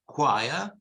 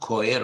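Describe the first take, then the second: First: The word begins with a k sound. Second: The word begins with a ch sound. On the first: The speaker calls it right. "these words are of Greek origin. Yeah, they're pronounced quia" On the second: The speaker calls it wrong. "not choir"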